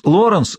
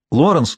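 First: Second, higher shout of Лоренс; louder second call. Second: Calling out. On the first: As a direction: call again, higher and more urgent. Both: A narrator's reading. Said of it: "вновь позвала она отца".

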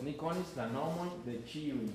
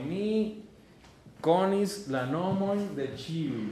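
First: Said in the usual way. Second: Slow and louder, stressing konis; slow emphatic model. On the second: Shown as a demonstration. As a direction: lay it out for the students. (lento y fuerte, marcando konis) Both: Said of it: "yo te voy a traducir".

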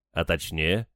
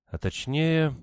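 First: Said in the usual way. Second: High, thoughtful echo, falling at the end; pondering. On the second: A narrator's reading. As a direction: repeat the question while searching memory. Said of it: "Надежда призадумалась". (задумчиво, высоким голосом)

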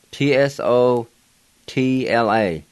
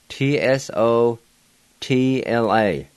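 The two takes are said the same way.

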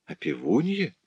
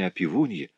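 First: Higher, soft questioning echo; surprised. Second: Said in the usual way. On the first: A narrator's reading. Rudolph echoes his neighbour's news, surprised. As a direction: echo it softly in astonishment. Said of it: "с удивлением спросил Рудольф".

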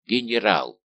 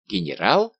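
First: Exclamation with a falling end; echoed exclamation. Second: Loud cry with a questioning rise; startled cry. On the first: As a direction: repeat the title in awe, letting it fall. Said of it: "повторили солдаты". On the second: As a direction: blurt it out in shock, rising at the end. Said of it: "вскричал Дигби, роняя шпагу". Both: A narrator's reading.

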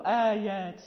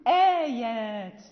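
First: "آيات" with a dark, heavy opening "aa", pitched low; thickened hamza. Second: Slow, loud "آيات" with a light, fronted "aa"; thin hamza. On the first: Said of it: "لا نقول". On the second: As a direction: stretch "آيات", keeping hamza and alif thin. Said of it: "الهمزة لا بد أن تكون مرققة". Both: Shown as a demonstration.

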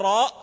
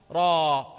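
First: "راء" ending on a sounded glottal stop; loud "راء" with its final hamza, as a question; hamza pronounced. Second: "راء" said as long open "raa", no glottal stop; hamza dropped. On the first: Teacher asking students if it was recited so, hamza pronounced. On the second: Teacher demonstrating the recited letter, hamza dropped. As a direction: stretch "راء" and leave out its hamza. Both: Shown as a demonstration. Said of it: "ماذا حذفت؟".

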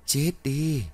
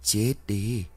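First: Eerie ghost curse. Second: Ghostly curse. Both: A narrator's reading. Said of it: "Một dòng cười ghê sợ vang lên".

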